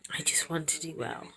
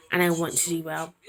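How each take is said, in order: First: A soft, voiceless whisper of her wish. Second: Said in the usual way. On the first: Real, not acted. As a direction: breathe it out as a whisper.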